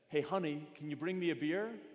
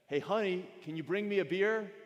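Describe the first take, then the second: First: It is said at normal volume. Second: It is said in a raised voice.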